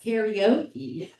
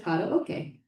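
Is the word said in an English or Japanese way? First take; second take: English; Japanese. First: It is said with English-style sounds. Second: It is said with Japanese-style sounds. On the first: "we all mis- mispronounce as karaoke" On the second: "which was shortened to karaoke"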